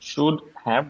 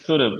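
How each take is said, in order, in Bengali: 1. দুটো শব্দই পুরোপুরি বলা হয়। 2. দ্বিতীয় শব্দটি ছোট করে এবং আগের শব্দের সঙ্গে জুড়ে বলা হয়। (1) "will become" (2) "will become should have"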